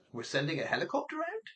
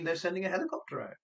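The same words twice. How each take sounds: First: Softer, "out" swept up into a question; incredulous question. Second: Quick, "out" falling as settled fact; statement intonation. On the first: Operator doubts Lucy's helicopter request, incredulous question. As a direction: query it in disbelief, rising sharply to "out". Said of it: "what Lucy took as a statement was a question". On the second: Lucy takes operator's words as fact, as a statement. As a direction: state it briskly, dropping on "out". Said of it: "Lucy took it to mean". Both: Shown as a demonstration.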